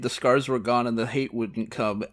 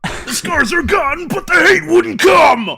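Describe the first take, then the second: First: It is read in the speaker's plain voice. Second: It is read imitating Krieg's voice.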